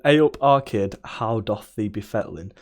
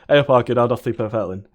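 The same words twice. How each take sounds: First: The phrase is spoken slowly and clearly. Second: The phrase is spoken quickly and run together.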